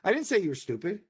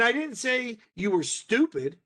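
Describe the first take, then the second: First: No single word is stressed. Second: The word 'stupid' is stressed. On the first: "I didn't emphasize any one of those words" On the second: "emphasis being on those individual words"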